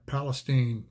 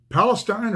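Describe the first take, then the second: First: Palestine with a long E, rhyming with "seen"; Palestine ending like "steen". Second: Palestine with a long I, rhyming with "fine"; Palestine ending like "stine". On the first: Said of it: "I think it's Palestine". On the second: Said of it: "is it Palestine or Palestine?". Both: Shown as a demonstration.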